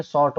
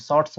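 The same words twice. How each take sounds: First: शॉर्ट said with no final s, ending on the t; शॉर्ट clipped at the t, as the wrong form; wrong form short. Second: शॉर्ट्स with a clear final s sound; correct form shorts. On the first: Teacher gives the wrong form शॉर्ट, no s. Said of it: "कभी सुने शॉर्ट बोलते हैं". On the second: Teacher gives the right form शॉर्ट्स with its s. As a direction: land the s at the end of शॉर्ट्स. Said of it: "शॉर्ट्स बोलते हैं". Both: Shown as a demonstration.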